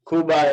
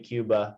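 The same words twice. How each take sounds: First: The first syllable is a plain 'koo' sound. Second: The first syllable is a 'kyoo' sound. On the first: This is how it is said in Spanish. "is the Spanish pronunciation" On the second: This is how it is said in English. "English we say Cuba"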